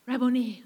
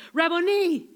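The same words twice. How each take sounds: First: Said in the usual way. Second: Higher, joyful cry of recognition; cried out. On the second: Retold or imitated. Mary recognizes Jesus, crying out with joy. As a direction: call it out with sudden joy. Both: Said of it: "she cried out in Aramaic".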